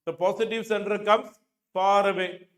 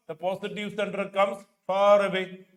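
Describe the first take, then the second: No difference in how they are said.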